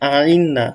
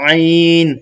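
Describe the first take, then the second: First: The sound ends with a wavering trailing tail. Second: The sound ends cleanly with no trailing waver. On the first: The speaker calls it wrong. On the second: The speaker calls it right. "একদম পরবর্তীতে আর কোনো আর কোনো ঢেউ বা ঢক আসবে না।"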